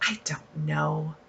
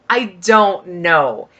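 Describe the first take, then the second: First: Breathy unsure whisper; I don't know, barely breathed out. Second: Said in the usual way. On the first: Real, not acted. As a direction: drop to a whisper, half to yourself. Unsure if she'll use it.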